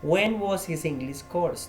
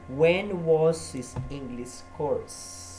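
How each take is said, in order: First: Said in the usual way. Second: Very slow, every word laid out; teacher modelling slowly; slow model question. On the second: Shown as a demonstration.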